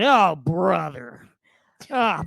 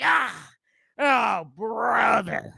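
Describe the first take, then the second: First: Slow, drawn-out mock groan of "Oh, brother", rising loud on the last "Oh"; imitating a winded man on a treadmill, slow and pained; treadmill guy groan. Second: Very slow, drawn-out "oh, brother" with a high "Ah" before it; treadmill guy groan. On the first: Imitating the gym guy on a runaway treadmill, slow, loud and groaning. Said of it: "he keeps saying". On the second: Retold or imitated. Imitating the gym guy as he hops off the treadmill, slow and high. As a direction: groan it out like a man about to fly off the belt. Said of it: "He's like".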